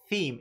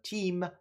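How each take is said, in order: First: The word begins with a th sound. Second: The word begins with a plain t sound. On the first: The speaker calls it right. "A th" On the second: The speaker calls it wrong. "my my my pronunciation of team"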